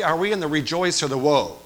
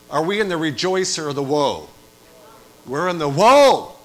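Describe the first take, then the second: First: Louder call-out. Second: Loud again, pressing the room for an answer; louder repeated call. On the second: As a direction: demand a real answer. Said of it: "thank you for four of you". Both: Acted.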